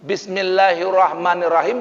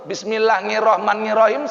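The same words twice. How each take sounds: First: The Arabic sounds are pronounced carefully and precisely. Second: The Arabic sounds are replaced with local sounds. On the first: The speaker calls it right. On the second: The speaker calls it wrong. "salah Pak"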